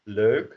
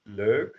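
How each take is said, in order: The two takes are said the same way.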